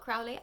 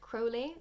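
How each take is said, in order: First: The first syllable does not sound like crow. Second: The first syllable sounds like the word crow. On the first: The speaker calls it wrong. "not Crowley" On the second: The speaker calls it right. "I've been corrected"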